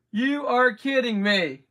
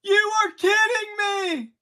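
First: Said in the usual way. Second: Disbelief shout. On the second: Real, not acted. Relic pull shout.

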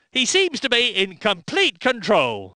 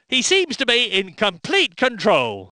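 No difference in how they are said.

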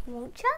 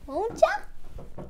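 First: Said in the usual way. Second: Won't ya? pitched much higher and teasing; high playful echo. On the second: Shown as a demonstration. Teacher playfully repeats a reminder to viewers, high teasing echo. Repeats tag question twice.

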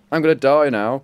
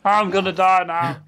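First: Loud, panicked warning; alarmed cry of imminent death. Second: Higher, slow mocking echo. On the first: Real, not acted. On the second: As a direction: tease the panic back, hammed-up.

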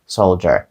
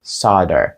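First: Soldier said as "SOHL-der", meaning solder; British "SOHL-der" for Soldier, with the l sounded; British pronunciation. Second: Soldier said as "SAH-der", meaning solder; American "SAH-der" for Soldier, with silent l; American pronunciation. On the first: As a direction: say Soldier almost as solder is spelt, with l and d. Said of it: "Якщо вам потрібна британська". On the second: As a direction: drop the l and use an open "ah" in Soldier. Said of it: "Це американська вимова". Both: Shown as a demonstration.

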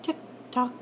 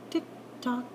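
Both takes have the same delivery.

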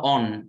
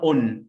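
First: American "on" with an open, unrounded ah; American accent. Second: British "on" with a short rounded o; British accent. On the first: Teacher contrasting two accents for students, American accent. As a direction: say "on" like "ahn", American style. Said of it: "في الأمريكان أكسنت بنطقها". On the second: Teacher contrasting two accents for students, British accent. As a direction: round the lips on "on", British style. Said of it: "في البريتش بنطقها". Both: Shown as a demonstration.

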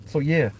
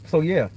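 The two takes are said the same way.

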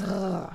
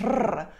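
First: Soft R from the back of the mouth; French R. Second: R trilled on the tongue tip; the non-French R, rolled. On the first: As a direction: scrape the R far back, untrilled. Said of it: "very much at the back of the mouth". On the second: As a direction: demonstrate a trilled R. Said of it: "this is not a French R". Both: Shown as a demonstration.

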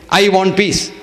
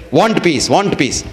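First: "I want peace" with the I leaned on; stress on I. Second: "Want peace" said with "want" stressed and falling; without the I. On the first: Guru asks disciple to repeat, stressing I. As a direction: put weight on "I" in "I want peace". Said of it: "Say that again". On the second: Guru has disciple repeat without I, stressed want. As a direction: drop the I and press on "want" in "Want peace". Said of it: "say that without that I". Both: Shown as a demonstration.

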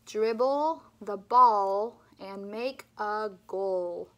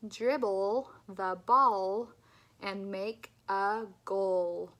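First: "Dribble" and "ball" said louder, slowly, with clear L; louder repeat. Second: "ball" and "goal" with slow, clear L; slow, careful L model; slow clear L drill. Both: Shown as a demonstration. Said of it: "Let's do it one more time".

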